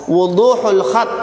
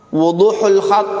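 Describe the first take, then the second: No difference in how they are said.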